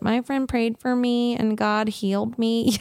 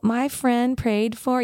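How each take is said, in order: First: A sheepish, slightly embarrassed "My friend prayed for me". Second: Said in the usual way. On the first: Retold or imitated. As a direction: say it a bit shyly, half-apologising to the doctor. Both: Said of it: "do the sheep is like".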